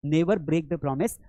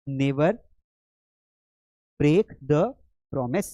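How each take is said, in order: First: Said in the usual way. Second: "Never ... break the ... promise" with long pauses between pieces; word by word. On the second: Shown as a demonstration. Teacher models answer piece by piece. ("Never break the promise" रुक-रुक कर, टुकड़ों में बोलें)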